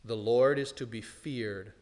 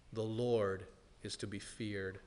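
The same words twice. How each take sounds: First: Said in the usual way. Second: Softer, low, solemn repeat of the refrain; hushed repeat. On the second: Acted. Preacher quietly repeats the warning to his congregation, hushed. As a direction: let the line sink into a grave hush.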